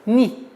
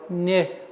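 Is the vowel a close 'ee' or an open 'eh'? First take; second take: close; open. First: The vowel is a close 'ee' sound. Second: The vowel is an open 'eh' sound. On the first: The speaker calls it right. "Четкое, ясное произношение кесры" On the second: The speaker calls it wrong. "Чтобы не был у нас произношение «не». ... Нет"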